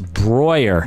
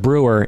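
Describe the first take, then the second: First: The vowel is an 'oi' sound. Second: The vowel is not an 'oi' sound. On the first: The speaker calls it right. "E U is pronounced oi" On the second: The speaker calls it wrong. "it's not Brewer"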